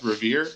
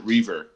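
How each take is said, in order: First: Revere, stressed on the second syllable; pronounced Revere. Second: Reaver, stressed on the first syllable; pronounced Reaver. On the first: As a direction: say Revere as ruh-VEER. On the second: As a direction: say Reaver as REE-ver. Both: Shown as a demonstration. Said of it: "Is that how it's pronounced".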